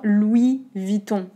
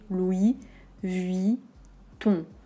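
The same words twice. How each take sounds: First: It is said fast, with syllables run together. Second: It is said slowly, each syllable kept distinct. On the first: "Quand on prononce vite" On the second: "les syllabes de manière très distincte"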